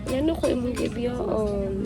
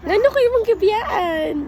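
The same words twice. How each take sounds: First: The line is said in a sad tone. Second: The line is said in a supportive tone. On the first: "Tapos sad, sad" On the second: "first kay supportive, supportive"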